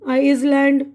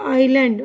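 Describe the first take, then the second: First: The 's' sound is pronounced. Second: The 's' sound is left silent. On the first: The speaker calls it wrong. "मैंने silent कुछ भी नहीं किया है" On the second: The speaker calls it right. "आइलैंड बोलते हैं"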